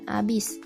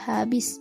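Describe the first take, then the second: First: The word begins with a vowel, no h. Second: The word begins with an h sound. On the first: The speaker calls it wrong. "bukan abis" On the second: The speaker calls it right. "yang seharusnya menjadi habis"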